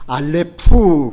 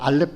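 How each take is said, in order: First: The final sound is fully released to the end. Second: The word ends abruptly with a clipped final sound. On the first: The speaker calls it right. "알렙프 그렇게 나가야 돼요" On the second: The speaker calls it wrong. "그냥 알렙 끊지 말고"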